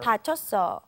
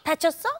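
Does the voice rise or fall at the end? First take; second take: falls; rises. First: The voice falls at the end, as a statement. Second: The voice rises at the end, as a question.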